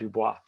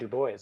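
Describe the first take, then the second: First: The name ends with a French 'bwah' sound. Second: The name ends with an English 'boys' sound. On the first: The speaker calls it wrong. "I just did that with Du Bois's name when I called him Dubois" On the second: The speaker calls it right. "I should apologize for mispronouncing Du Bois"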